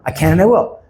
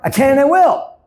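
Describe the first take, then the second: First: It is said louder than before. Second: It is said loudest of all, nearly shouting. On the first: "Say louder"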